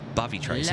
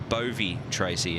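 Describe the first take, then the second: First: The first syllable rhymes with love. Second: The first syllable does not rhyme with love. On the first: The speaker calls it right. "actually pronounced Bovey, like it rhymes with the word love" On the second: The speaker calls it wrong. "everyone pronounces it Bovy Tracy"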